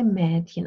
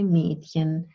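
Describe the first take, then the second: First: The first vowel is open, as in 'bear'. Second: The first vowel is closed, as in 'beer'. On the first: Other people say it this way. "Some people say" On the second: The speaker says it this way. "I say"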